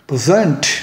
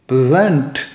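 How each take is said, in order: First: The stress is on the second syllable. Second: The same.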